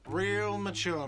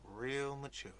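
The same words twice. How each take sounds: First: Loud, slow, whiny jeer; whiny shout. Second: Muttered whine. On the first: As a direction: sneer it out like a sulky brat. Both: Acted. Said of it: "a whiny voice shouts".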